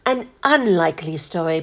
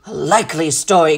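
First: Butler's measured, polite rejoinder; unruffled formal reply; composed correction. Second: Low, gruff sceptical retort; captain's sceptical grumble; growled disbelief. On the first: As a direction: concede it smoothly, without a growl. Butler corrects the captain's phrase. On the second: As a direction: growl it dismissively. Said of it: "growled the captain". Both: A narrator's reading.

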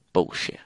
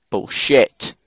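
First: Softer, low-key cursing; muttered disgust. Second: BULLSHIT with a punched, rising second syllable; emphatic disgust. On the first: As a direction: mutter BULLSHIT under your breath. Reaction to death, first take. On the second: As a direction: hit the end of BULLSHIT hard. Repeats it with more force. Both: Real, not acted.

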